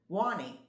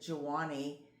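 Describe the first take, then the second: First: The name begins with a W sound. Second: The name begins with a J sound. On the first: The speaker calls it right. "she pronounces it Wani, as my husband says, well, that's how it should be pronounced" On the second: The speaker calls it wrong. "I'm going to say this like a, a not Spanish girl. I pronounce it Juani"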